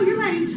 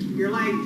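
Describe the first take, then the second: First: It is said in a content tone. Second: It is said in a bored tone. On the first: The speaker is at ease with the lateness. "And then content" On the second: The speaker does not care about the lateness.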